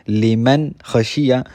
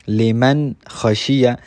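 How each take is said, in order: The two takes are said the same way.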